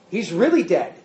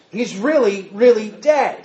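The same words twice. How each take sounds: First: Really leaned on, falling to dead; He's REALLY dead, weight on really; stress on really. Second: Really, really pressed harder and louder the second time; second really punched, louder; doubled emphasis on really. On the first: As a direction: hit the word really. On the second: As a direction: build the two reallys toward dead. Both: Shown as a demonstration. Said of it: "he's not just dead".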